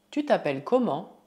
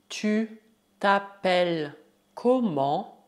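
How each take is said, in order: First: Said in the usual way. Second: Slow, split into syllables; word by word. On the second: Shown as a demonstration. Teacher asks learners' name as example, word by word. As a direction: dictate it slowly with pauses.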